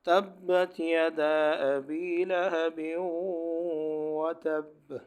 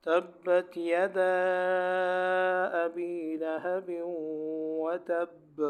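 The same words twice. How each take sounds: First: Slow recitation with the final vowel of یدا kept short; short vowel on یدا, chanted slowly; without madd. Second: Slow Quranic recitation with the vowel of یدا drawn out long; long madd on یدا, chanted slowly. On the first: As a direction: recite یدا ابی straight on, no drawn-out madd. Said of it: "اور بغیر مد کے بھی آپ پڑھ سکتے ہو". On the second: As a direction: recite تبت یدا and hold the madd on یدا before ابی. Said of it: "اس طرح بھی پڑھ سکتے ہو مد کر کے". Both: Shown as a demonstration.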